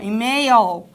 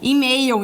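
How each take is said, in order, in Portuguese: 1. O L final é um L claro, com a língua levantada. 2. O L final soa como a vogal U. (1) "em inglês eu tenho que subir minha língua" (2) "em português, que parece um U aqui no final"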